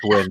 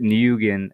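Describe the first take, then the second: First: The name is said exactly like 'win'. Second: The name is not said like 'win'. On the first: The speaker calls it right. "nah, bro, it's Win" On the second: The speaker calls it wrong. "used to pronounce it Nguyen"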